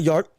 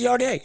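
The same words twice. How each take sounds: First: Yard said as one short syllable; a clipped Yard, no final vowel; wrong name. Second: Yardé with a stressed final vowel, yar-DAY; correct name. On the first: Host correcting a name, first the wrong Yard. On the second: Host corrects a boxer's name to Yardé. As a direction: land the last syllable of Yardé. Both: Shown as a demonstration. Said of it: "I spelled Yard's name wrong".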